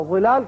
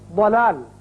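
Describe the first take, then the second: First: It starts with a buzzing Z sound. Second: It starts with a heavy, D-like sound. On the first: It means something that gives shade. The speaker calls it wrong. "वलाल कह दिया" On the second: It means going astray. The speaker calls it right. "अगर आपने अरबी में मखरज इसका सही निकाला"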